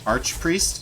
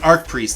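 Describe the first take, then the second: First: The first word ends with a ch sound. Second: The first word ends with a k sound. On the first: "some people say arch, like arch angel" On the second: "I pronounce it arc priest"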